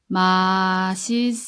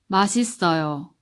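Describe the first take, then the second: First: It is said slowly. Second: It is said fast.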